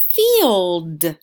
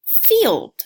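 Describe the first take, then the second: First: "Field" drawn out slowly and loud, sounds blended; stretched sound-out. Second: Said in the usual way. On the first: Shown as a demonstration. Teacher to young learners, blending "Field" slowly. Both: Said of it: "If you said field".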